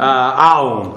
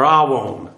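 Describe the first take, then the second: First: "aon" with no w sound; first pronunciation, aon. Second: "awon" with a w sound; alternative pronunciation, awon. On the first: Teacher gives the Hebrew noun's first pronunciation, "aon" without w. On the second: Teacher gives the Hebrew noun's other pronunciation, "awon" with w. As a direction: say "awon", the variant with w. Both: Shown as a demonstration. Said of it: "aon or awon".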